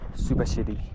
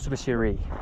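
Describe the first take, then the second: First: The r sounds between r and l. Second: The r is a plain English r. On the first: The speaker calls it right. "mixed between an R and an L" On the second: The speaker calls it wrong. "it's not Subashiri"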